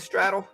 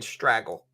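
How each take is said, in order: First: The middle consonant is a d sound. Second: The middle consonant is a g sound. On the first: The speaker calls it right. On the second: The speaker calls it wrong.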